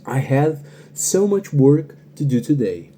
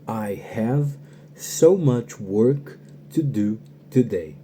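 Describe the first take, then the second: First: The sentence is spoken at normal conversational speed. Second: The sentence is spoken a little more slowly. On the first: "Vou dizer ela normal" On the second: "depois eu faço ela um pouquinho devagar"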